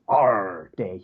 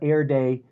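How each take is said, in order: First: The first syllable sounds like a pirate's 'arr'. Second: The first syllable sounds like the word 'air'. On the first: The speaker calls it right. "the correct pronunciation is R Day. You have to pronounce it like a pirate" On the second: The speaker calls it wrong. "I call it Air Day"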